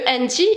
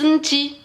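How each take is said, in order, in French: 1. Le mot commence par une voyelle avant le N. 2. Le mot commence directement par le son N. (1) "Au lieu anti" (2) "ils disent nti pour pour euh, parler plus rapidement"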